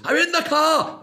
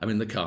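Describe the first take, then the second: First: It is shouted loudly. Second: It is said at normal volume.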